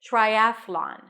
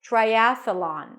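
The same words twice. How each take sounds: First: The th moves straight into the L. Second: A small uh sound separates th and L. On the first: "Same transition" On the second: "add a schwa between, a small uh sound"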